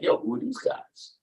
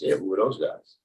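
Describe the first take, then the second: First: It sounds intrigued and curious. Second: It sounds uninterested and dismissive.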